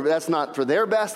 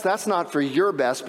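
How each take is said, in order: First: "their" picked out above the other words; stress on their. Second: "your" picked out above the other words; stress on your. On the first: Moses arguing with God for the people, stress on "their". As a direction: lean on the word "their". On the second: Moses arguing for God's own good, stress on "your". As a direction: lean on the word "your". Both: Acted. Contrasts whose best it is.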